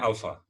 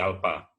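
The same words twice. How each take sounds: First: It is said with a standard pronunciation. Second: It is said with a Sumatran pronunciation. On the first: The speaker calls it right. "Sebenarnya alfa ya" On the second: The speaker calls it wrong. "Kalau di Sumatera berubah jadi alfa"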